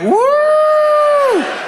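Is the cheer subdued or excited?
excited. The cheer sounds excited and high-pitched.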